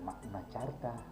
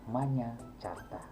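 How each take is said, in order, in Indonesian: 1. Kata pertama diucapkan dengan k keras lalu n. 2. Kata pertama diucapkan dengan bunyi 'ny'. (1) "Jadi bukan" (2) "Ini Manya Carta"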